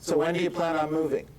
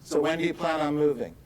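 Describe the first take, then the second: No difference in how they are said.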